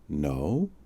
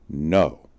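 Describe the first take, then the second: First: The voice rises at the end. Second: The voice falls at the end.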